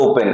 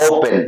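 First: Said in the usual way. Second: "ওপেন" opening on a long oh; corrected O vowel. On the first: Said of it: "যারা উ বলে তারা বলে". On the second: Shown as a demonstration. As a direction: stretch the first vowel of "ওপেন". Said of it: "উচ্চারণ হবে".

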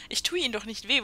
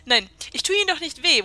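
First: Said in the usual way. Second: Louder, higher, mocking "Ihnen doch nicht weh"; sarcastic reassurance. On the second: Reading the sarcastic answer to the scared woman, mockingly. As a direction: sneer the comfort at her. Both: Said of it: "das ist so sarkastisch".

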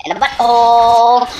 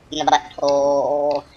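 First: High, loud repeat; shouted punchline. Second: Said in the usual way. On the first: Acted. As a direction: yell it out for the laugh. Repeated louder.

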